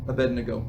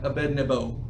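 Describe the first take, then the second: First: The sound before the final vowel is g. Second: The sound before the final vowel is b. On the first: This is the form the name has taken in common use. "it's become in our vernacular" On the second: This is the older, original form of the name. "I suppose it would have been like"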